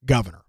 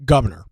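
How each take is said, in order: First: Said in the usual way. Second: "Governor" hit louder, falling at the end; stressed Governor. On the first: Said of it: "He said". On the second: Shown as a demonstration. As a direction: lean hard on "Governor", pointed and mocking. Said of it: "in his comments".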